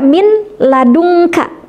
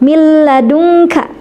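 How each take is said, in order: First: The n is pronounced separately before the l. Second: The n merges fully into a doubled l. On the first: The speaker calls it wrong. "tidak baca min ladunka" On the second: The speaker calls it right. "tapi min ladunka. Nah, jadi suara nunnya masuk ke huruf lam"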